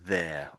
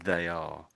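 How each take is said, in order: First: It is said as one single syllable. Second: It is said as two separate syllables. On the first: The speaker calls it right. "technically, you pronounce it like there" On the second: The speaker calls it wrong. "you expanded out this little bit here... put a gap in"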